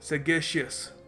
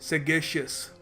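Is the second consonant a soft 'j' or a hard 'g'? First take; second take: hard g; hard g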